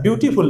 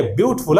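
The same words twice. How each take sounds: First: "ब्यूटीफुल" as byoo-tee-fool; wrong three-syllable beautiful. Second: "ब्यूटीफुल" said as byoot-ful, no "tee"; two-syllable beautiful. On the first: Retold or imitated. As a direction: keep a full "tee" in "ब्यूटीफुल". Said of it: "उल्टा बोलता है". ("ब्यूटीफुल" में "टी" पूरा बोलकर) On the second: Shown as a demonstration. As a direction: drop the middle vowel of "ब्यूटीफुल": BYOOT-ful. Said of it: "कोई सही बोल दिया". ("ब्यूटीफुल" दो सिलेबल में, ब्यूट-फुल)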